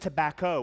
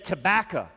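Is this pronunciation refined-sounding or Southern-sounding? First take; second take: refined; Southern. First: It is said in a refined, sophisticated manner. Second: It is said in a Southern manner. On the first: The speaker thinks this way of saying it is proper. "somebody sophisticated in the room that's like" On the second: The speaker belongs to the local Southern community. "We are in the South. We don't say tobacco, all right? ... We say tobacco"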